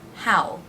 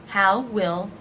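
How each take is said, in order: First: It is contracted into one syllable. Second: Both words are said in full.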